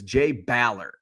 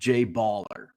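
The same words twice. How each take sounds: First: The surname is not said like slang 'baller'. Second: The surname is said like slang 'baller'. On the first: This is the player's real name. The speaker calls it right. "I was so disappointed when I learned that his name is Jay Baller" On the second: This is a misreading of the name. The speaker calls it wrong. "not Jay Baller"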